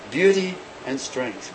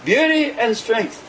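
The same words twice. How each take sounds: First: Hushed. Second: Said in the usual way. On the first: Shown as a demonstration.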